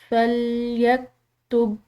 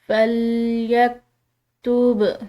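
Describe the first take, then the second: First: The final b is held closed without release. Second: The final b is released with a bounce. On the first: The speaker calls it wrong. "बा को रोक कर, तो इस तरह ये दुरुस्त नहीं होगा" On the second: The speaker calls it right. "हिलाकर अदा करना है"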